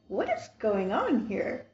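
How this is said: It sounds surprised.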